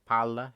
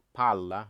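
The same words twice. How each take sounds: First: Palla said with a short single l, pa-la. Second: Palla with a long held l, pal-la; held double l. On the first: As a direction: keep the l in Palla quick. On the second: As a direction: hold the l in palla longer. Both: Shown as a demonstration. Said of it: "You have to hold double letters for longer".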